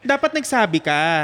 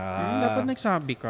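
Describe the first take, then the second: First: It is said in an angry, scolding tone. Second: It is said in a soft, gentle tone.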